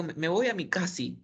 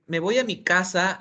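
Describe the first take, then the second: First: "me voy a mi casi" with casi for casa; wrong word casi. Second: Said in the usual way. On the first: Shown as a demonstration. Teacher mispronouncing "casa" as "casi". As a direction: say "casi" instead of "casa" on purpose. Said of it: "le digo". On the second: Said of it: "en lugar de decir".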